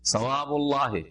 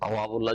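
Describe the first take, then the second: First: The word begins with a th sound. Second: The word begins with a t sound. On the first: The speaker calls it right. "সওয়াবুল্লাহ সা দিয়ে রয়েছে" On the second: The speaker calls it wrong. "এখন তাওয়াবুল্লাহ যদি পড়েন"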